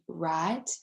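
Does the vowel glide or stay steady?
steady. The vowel stays steady without a glide. "would be right"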